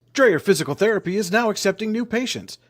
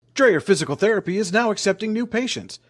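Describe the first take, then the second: The two takes are said the same way.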